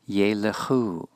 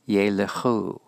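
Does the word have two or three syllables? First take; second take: three; three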